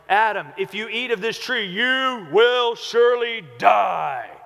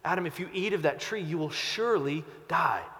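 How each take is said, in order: First: It is said in a harsh, condemning tone. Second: It is said in a warm, pleading tone.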